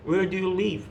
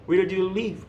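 The two takes are said the same way.

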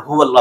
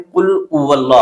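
First: हुवल्ला with a clear h at the start; correct pronunciation. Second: उवल्ला with the h dropped; wrong pronunciation. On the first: Teacher gives the correct form with a clear h. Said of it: "हुवल्ला पढ़ना है". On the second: Teacher imitates students' mistake, dropping the h. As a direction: imitate the error, saying उवल्ला without the h. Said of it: "तो लोग क्या गलती करते हैं". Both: Shown as a demonstration.

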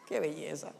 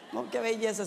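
First: Softer, lower murmured marvel; soft aside. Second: Said with a chuckle; laughing. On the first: Preacher marvelling at María's devotion, soft lower aside. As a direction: breathe it almost to yourself. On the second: Preacher delighting in María's zeal, laughing through it. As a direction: let the laugh carry the words. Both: Real, not acted.

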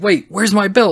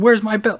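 First: Higher-pitched retold double take; mock alarm. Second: Retold yell. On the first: Shawn looking around for his belt, retold in mock alarm. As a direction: lightly act out sudden puzzlement. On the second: Shawn yelling about his missing belt, retold as mock yell. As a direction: imitate yelling without raising the volume. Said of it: "he starts yelling".

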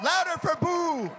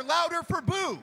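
First: "Louder FOR Boo" with FOR punched; stress on for. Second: "LOUDER for Boo" with LOUDER punched; stress on louder. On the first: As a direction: hit the word "for", not "Boo". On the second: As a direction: lean on "louder", keep "Boo" light. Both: Shown as a demonstration. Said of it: "Not Boo louder, louder for Boo".

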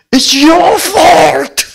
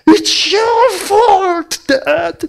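First: High, loud, crying wail. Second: High, drawn-out crying wail; hammed-up child blaming her dad; crying blame. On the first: Retold or imitated. Little daughter wailing at her father while beating his chest. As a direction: sob it out as blame. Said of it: "통곡을 하면서". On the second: Daughter blaming her father through tears, high wail. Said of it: "막 그러면서 막 가슴을 때리는 거야".

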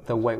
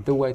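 First: "the way" with a neutral unrounded "the"; ordinary "the". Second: "the way" with a rounded "the"; "the" toward oo. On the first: Teacher gives the easier option, plain "the". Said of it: "thì mọi người hát". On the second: Teacher gives the harder version, "the" rounded. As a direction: say "the way" with "the" near "thoo". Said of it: "Nếu không hát được". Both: Shown as a demonstration.

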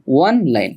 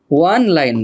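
First: "ওয়ান লাইন" starting on a pure o vowel, as online; correct vowel onset. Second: "ওয়ান লাইন" starting like the English word one; wrong w onset. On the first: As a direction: say "ওয়ান লাইন" as on-line, without w. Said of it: "বাংলায় এটার হয় হচ্ছে". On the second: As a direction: misread "ওয়ান লাইন" as won-line. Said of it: "ওয়ান লাইন না". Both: Shown as a demonstration.

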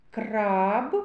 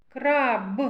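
First: "Краб" with a clear rolled Р, rising tone; Р highlighted. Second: "Краб" with a separate, released final Б; final consonant highlighted. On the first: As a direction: bring out the Р in "Краб", ending on a rise. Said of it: "Р. Твердий приголосний". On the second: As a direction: finish "Краб" on a distinct voiced Б. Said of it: "Б. Твердий приголосний". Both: Shown as a demonstration.

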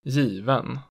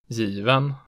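First: Given peaking at once, dropping sharply, rising late; type two B accent two. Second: Given falling on the first syllable, rising on the second; type two B accent one. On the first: Teacher showing regional tones, given with double-peak accent two. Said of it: "it immediately peaks and then drops sharply". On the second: Teacher showing regional tones, Given with falling-rising accent one. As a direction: dip Given, then peak on the ending. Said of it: "falls in the stressed syllable and then rises". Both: Shown as a demonstration.

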